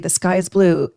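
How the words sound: It is said in a cold, angry tone.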